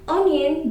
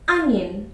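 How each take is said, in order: First: The first vowel sounds like 'oh'. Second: The first vowel sounds like 'uh'. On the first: The speaker calls it wrong. "it's wrong to say onion" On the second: The speaker calls it right. "The sound starts with a"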